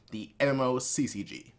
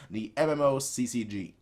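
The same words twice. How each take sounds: The two takes are said the same way.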